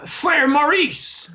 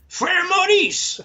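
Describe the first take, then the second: First: Said in the usual way. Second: "Frère Maurice!" called out much higher and slow, rolled French r; French flourish. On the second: Shown as a demonstration. Recalling his French teacher, fond, exaggerated French exclamation. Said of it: "Frère Maurice was my".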